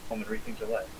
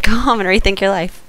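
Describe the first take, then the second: First: Soft breathy Jedi mind trick; quiet Obi-Wan line. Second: Lightly voiced Jedi line; Obi-Wan quote. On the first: Retold or imitated. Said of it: "or whatever Obi-Wan says". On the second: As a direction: say it like a calm Jedi. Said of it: "there we go".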